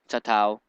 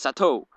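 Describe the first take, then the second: First: The name is said as Satao. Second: The name is said as Sato. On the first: The speaker calls it wrong. "it's not Satao" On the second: The speaker calls it right. "It's Sato"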